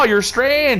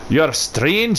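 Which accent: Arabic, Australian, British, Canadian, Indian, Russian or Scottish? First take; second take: Canadian; Scottish. First: It is spoken in a Canadian accent. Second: It is spoken in a Scottish accent. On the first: "just my regular Canadian accent" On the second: "Could have like the Scottish tree"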